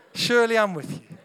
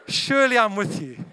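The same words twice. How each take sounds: The two takes are said the same way.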